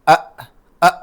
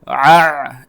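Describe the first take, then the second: First: Both sounds are plain glottal stops. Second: Both sounds come from deep in the throat. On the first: "दोनों को हमजा बनाते हैं, अ अ बोलते हैं" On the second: "दोनों को हलक से ही निकालें, हम बोलेंगे आ, इस तरह नहीं"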